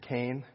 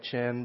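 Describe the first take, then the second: First: It is said like the English name Cain. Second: It is said like the English word chin. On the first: The speaker calls it right. "but it's Cain" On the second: The speaker calls it wrong. "It looks like chin"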